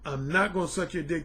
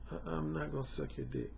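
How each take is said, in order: First: It is said loudly and firmly. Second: It is said more quietly, with a stumble.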